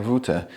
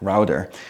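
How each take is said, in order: First: It is said in a non-American accent. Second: It is said in an American accent.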